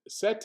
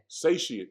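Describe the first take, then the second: First: The word is said in a short, clipped form. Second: The word is said in its full form. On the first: The speaker calls it wrong. "I always say sete" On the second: The speaker calls it right. "let me make sure I pronounce it correctly"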